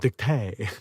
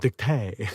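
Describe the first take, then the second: First: It is pronounced the French way, like 'dictay'. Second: The same.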